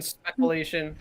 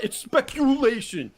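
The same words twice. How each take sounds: First: Speculation, said the host's wrong way on purpose with a chuckle; deliberately mispronounced speculation. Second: It's speculation, with spekyulation said the standard way; speculation said correctly. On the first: Shown as a demonstration. Host shows his trolling wrong speculation, teasing. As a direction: twist the word speculation on purpose. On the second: Retold or imitated. Commenter correcting the host's speculation, standard pronunciation. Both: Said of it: "I purposely say speculation wrong".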